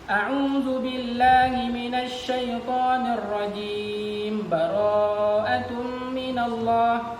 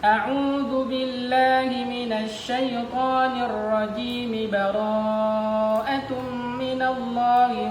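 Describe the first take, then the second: First: Rajim ends clipped, yet runs on without a stop. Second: Rajim keeps its final vowel and flows on directly. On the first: The speaker calls it wrong. "Salah itu. Karena rajimnya disukunkan, padahal dia mau menyambung" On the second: The speaker calls it right. "kalau kita sambung semua"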